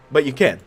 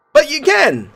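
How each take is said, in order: First: Said in the usual way. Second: Higher, louder but you CAN; high emphatic can. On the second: Shown as a demonstration. Player tries out the reply choices aloud, high and firm. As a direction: stress can firmly. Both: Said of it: "Let's say, but you can".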